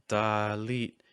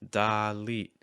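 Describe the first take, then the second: First: The first vowel is placed high in the throat. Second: The first vowel is placed high in the throat.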